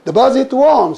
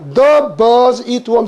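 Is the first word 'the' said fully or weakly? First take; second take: weakly; fully. First: The first word 'the' is said weakly. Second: The first word 'the' is said fully.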